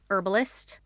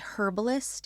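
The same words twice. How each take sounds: First: The word starts with a silent h. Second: The word starts with a pronounced h.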